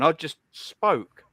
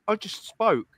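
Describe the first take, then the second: First: Each word laid down slowly; slow and deliberate. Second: Said in the usual way. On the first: Real, not acted. Streamer to chat, slowly and deliberately. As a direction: spell it out slowly, with weight.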